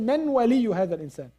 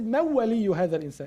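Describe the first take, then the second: First: The n is said fully before the w. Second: The n merges into the w in fast speech. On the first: The speaker calls it wrong. "They don't say" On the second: The speaker calls it right. "In this way. In this fast way"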